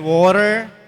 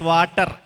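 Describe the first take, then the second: First: It is said with an American accent. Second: It is said with an Indian accent. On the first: "in American English, they would say water" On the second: "We always pronounce water as water"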